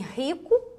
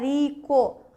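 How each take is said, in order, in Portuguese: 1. O primeiro R é forte e gutural. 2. O primeiro R é fraco, uma batidinha leve. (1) "esse R ele é forte" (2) "Você não fala rico"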